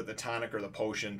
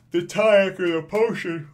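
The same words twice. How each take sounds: First: Said in the usual way. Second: Talking right through a yawn. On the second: Real, not acted. Reviewer overtaken by a midday yawn, real yawning speech. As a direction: let a big yawn swallow the words. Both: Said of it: "middle of the day and I'm yawning".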